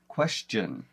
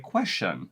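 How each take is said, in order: First: The ending is pronounced with a 'ch' sound. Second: The ending is pronounced with a 'sh' sound. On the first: The speaker calls it right. "We actually turn that last part of the word into a C H sound" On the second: The speaker calls it wrong. "a shun sound. So we should say question. But that's not what we do"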